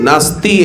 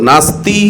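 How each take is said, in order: No difference in how they are said.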